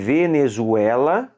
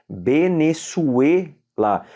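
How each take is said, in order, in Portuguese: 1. O V e o Z têm som português. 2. O V soa como B, o Z como S. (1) "escreve Venezuela" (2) "se fala em espanhol Venezuela"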